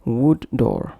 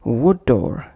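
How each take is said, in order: First: WOOD, break, DOOR, both d's sounded; separate words. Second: WOOD DOOR joined on one d; linked consonants. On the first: Teacher showing what to avoid, separate words. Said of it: "instead of". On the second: Teacher showing the correct connection, linked consonants. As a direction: flow "wood" into "door" with a single d. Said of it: "pronounced as". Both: Shown as a demonstration.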